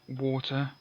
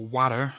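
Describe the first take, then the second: First: It is said in a British accent. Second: It is said in an American accent.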